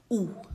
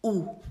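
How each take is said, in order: First: French où, rounded oo sound. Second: Où said again slowly as a clean "oo"; French où repeated. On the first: Teacher modelling où for students, clear French vowel. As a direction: say où like "oo", lips rounded. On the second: Teacher repeats où for students to copy. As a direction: model où once more for the class. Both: Shown as a demonstration. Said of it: "One more time".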